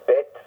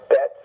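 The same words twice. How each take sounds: First: "bit" with a short I as in "sit". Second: "bet" with a short open E as in "get". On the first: Teacher showing a student another variant, bit with an ih. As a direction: say "bit" with an ih vowel. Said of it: "some may say bit". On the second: Teacher showing a student one variant, bet with an eh. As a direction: say "bet" with an eh vowel. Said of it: "some may say". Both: Shown as a demonstration.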